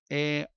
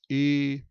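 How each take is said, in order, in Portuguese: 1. A vogal é aberta, com a boca bem aberta. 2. A vogal é fechada, com a boca mais fechadinha. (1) "Perceba o timbre aberto" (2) "Timbre fechada, boca mais fechadinha"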